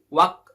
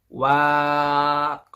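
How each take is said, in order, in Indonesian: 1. Vokalnya dibaca pendek. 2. Vokalnya dibaca panjang. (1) "tapi singkat menjadi wak tarib" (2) "bukan wak"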